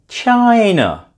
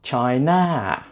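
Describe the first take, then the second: First: The stress is on the first syllable. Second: The stress is on the second syllable. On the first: The speaker calls it right. "stress the first syllable" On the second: The speaker calls it wrong. "not China"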